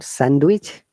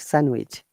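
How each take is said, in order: First: A D sound is heard in the middle. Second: No D sound is heard in the middle. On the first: The speaker calls it wrong. "not sandwich" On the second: The speaker calls it right. "There is no D sound"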